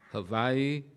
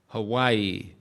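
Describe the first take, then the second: First: The word is said the local Hawaiian way. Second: The word is said the common English way. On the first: The speaker calls it right. "not bad" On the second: The speaker calls it wrong. "I've now been told that's the wrong pronunciation"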